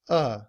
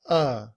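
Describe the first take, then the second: The two takes are said the same way.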